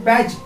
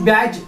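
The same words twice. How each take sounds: Both takes have the same delivery.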